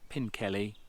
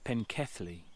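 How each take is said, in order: First: The middle consonant is a plain L sound. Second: The middle consonant is a TH-L sound. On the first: The speaker calls it wrong. "I've been mispronouncing this completely wrong. Not Pinkelly" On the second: The speaker calls it right. "it's Penkethly"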